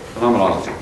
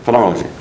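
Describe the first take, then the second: First: The word is said slowly, syllable by syllable. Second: The word is said quickly in one run. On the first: "sound it out again" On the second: "If you say it fast, then it sounds like you know how to say it"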